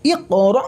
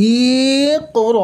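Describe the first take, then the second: First: ইক র with short, unstretched vowels and an abrupt stop; no stretching. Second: ইক র with both vowels dragged out long; wrongly drawn-out vowels. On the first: Quran teacher correcting the stretch for learners, no stretching. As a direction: cut র off short in ইক র, no held note. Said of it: "এই ধরনের কোনো টান হবে না". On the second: Quran teacher showing learners the forbidden stretch, wrongly drawn-out vowels. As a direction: stretch ইক র slowly on held notes, as the mistake. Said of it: "কোনো টান হবে না, মানে". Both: Shown as a demonstration.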